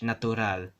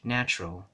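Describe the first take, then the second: First: It is pronounced the Spanish way. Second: It is pronounced the English way.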